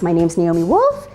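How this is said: The voice rises at the end like a question. The speaker sounds unsure of herself. The speaker calls it wrong. "Women tend to put in question marks. Even with their names"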